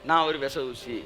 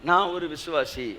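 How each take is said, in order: First: It is said in a dejected, lifeless tone. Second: It is said in a confident, lively tone. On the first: The speaker sounds burdened, as if deeply in debt. The speaker calls it wrong. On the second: The speaker is proud to be a believer. The speaker calls it right.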